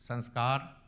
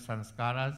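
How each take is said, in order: First: The word ends with the 'kar' sound. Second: The word ends with an extra final syllable. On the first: The speaker calls it right. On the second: The speaker calls it wrong.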